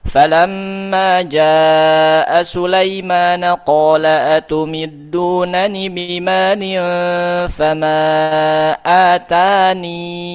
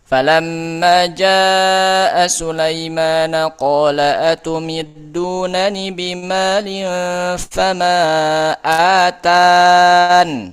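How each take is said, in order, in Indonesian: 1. Kata terakhir berakhir dengan vokal panjang 'ee'. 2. Kata terakhir berakhir dengan bunyi 'n' mati. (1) "Boleh atani, iya-nya dihadirkan" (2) "Boleh atan, iya-nya dihilangkan"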